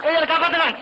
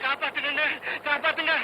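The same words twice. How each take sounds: First: Calling out for help. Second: Muffled cry from well. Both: Acted. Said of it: "ஏன் கத்துற?".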